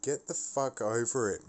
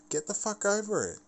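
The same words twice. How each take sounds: First: Said in the usual way. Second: Higher, faster repeat. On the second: Real, not acted. Ranting at friends, the repeat higher and faster. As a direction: Get the fuck over it, pitched much higher and rushed.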